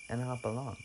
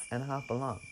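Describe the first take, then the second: No difference in how they are said.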